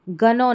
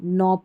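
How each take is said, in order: First: The word starts with a hard g sound. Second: The word starts with an n sound. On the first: The speaker calls it wrong. "इसको गनो नहीं" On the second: The speaker calls it right. "नौ पढ़ते हैं"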